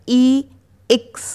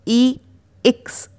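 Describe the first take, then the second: The two takes are said the same way.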